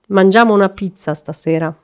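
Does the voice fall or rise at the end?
falls. The voice falls at the end.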